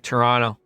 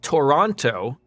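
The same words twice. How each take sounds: First: It is said the relaxed local way. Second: It is said the careful spelled-out way. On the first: The speaker is from the city. The speaker calls it right. "you can tell that you're from Toronto because you'll say it like Toronto" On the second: The speaker only knows the name from a map. The speaker calls it wrong. "It's not Toronto, like someone who would just see it on a map"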